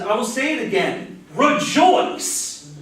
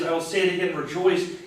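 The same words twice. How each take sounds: First: Rejoice is exclaimed loudly. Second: Rejoice is said at normal, quiet volume.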